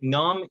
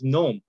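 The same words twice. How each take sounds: First: The vowel is an ah sound. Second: The vowel is an oh sound. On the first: This is the Iranian Persian pronunciation. "the ah sounds become O" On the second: This is the eastern, Tajik Persian pronunciation. "becomes nom"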